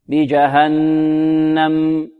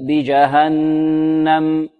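The two takes are said the same way.

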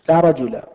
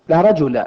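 No difference in how they are said.

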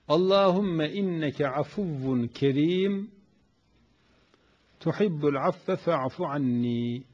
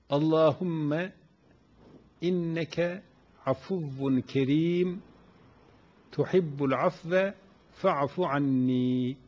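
First: It is recited at a normal pace. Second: It is recited very slowly.

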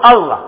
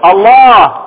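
First: The long vowel is clipped short and light. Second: The long vowel is drawn out and full. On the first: The name is said casually, like a pet name. The speaker calls it wrong. "فلا تقل الله، احنا ما في عندنا دلال" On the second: The name is said with reverence. The speaker calls it right. "عظم اسمه العظيم فقل الله، املأ بها فمك"

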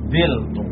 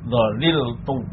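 First: It has two syllables, the first vowel is i. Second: It has three syllables with the full middle consonant. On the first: "lam kalimahnya dibuang, kemudian harokat pada ain kalimah dioper" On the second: "Yang pertama itmam, artinya tetap tidak ada perubahan"

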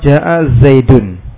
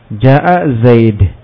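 First: The last word ends with an -un sound. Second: The last word ends on a bare consonant. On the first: The sentence continues without a stop. "Dhammah yang pertama ada harokat tanwin" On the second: The speaker stops at the end of the sentence. "dengan dibuang harokat dan apa tanwinnya, dengan disukun"

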